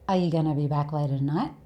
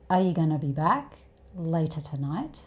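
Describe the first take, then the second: First: The words are reduced and run together. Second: Each word is said fully and clearly.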